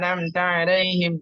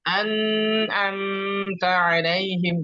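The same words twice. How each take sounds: First: The phrase is recited too quickly, sounds blurred. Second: The phrase is recited too slowly, sounds drawn out. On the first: "contoh terlalu cepat begini" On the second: "tidak boleh terlalu lama, jangan"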